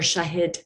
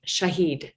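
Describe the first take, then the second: First: Shahid said as a correction; second, corrected attempt at Shahid; corrected name pronunciation. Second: Shahid said the mistaken way; first, wrong attempt at Shahid; mispronounced name. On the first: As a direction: correct yourself softly on Shahid. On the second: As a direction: try Shahid, not yet correct. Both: Shown as a demonstration. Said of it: "I said it wrong the first time".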